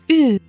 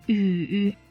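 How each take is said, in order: First: The pitch falls sharply from high to low. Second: The pitch dips low, then rises.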